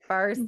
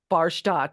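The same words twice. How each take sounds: First: The name has a plain American pronunciation. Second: The name has a foreign-sounding pronunciation. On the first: The speaker calls it right. "nope, it's from Minnesota" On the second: The speaker calls it wrong. "something foreign, something a little bit sexier"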